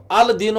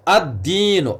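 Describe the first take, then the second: First: अल दीन with a clear separate l before दीन; wrong reading shown. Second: अद्दीन with the l dropped and a doubled d; assimilated sun letter. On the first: Teacher showing the wrong reading अल दीन, l pronounced. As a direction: sound the l in अल दीन as the mistake. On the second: Teacher showing the right reading अद्दीन, doubled d. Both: Shown as a demonstration. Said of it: "अल दीन हमने नहीं पढ़ा".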